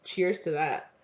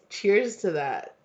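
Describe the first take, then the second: First: Said in the usual way. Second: "Cheers to that" drawn out slowly; slow savouring "Cheers to that"; slow toast. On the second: Shown as a demonstration.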